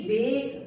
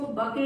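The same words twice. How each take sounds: First: Said in the usual way. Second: बके in two syllables, final e sounded; wrong reading. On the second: Shown as a demonstration. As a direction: misread bake as बके, "buh-kay". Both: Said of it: "इसको बके नहीं बोलेंगे".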